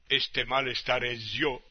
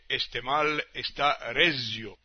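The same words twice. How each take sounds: First: The stress in resio falls on the last syllable. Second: The stress in resio falls on the first syllable. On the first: This is the shifted stress heard in popular songs. "la palabra que normalmente es llana o grave, aquí se convierte en una palabra aguda" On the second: This is the word's normal stress. "en vez de"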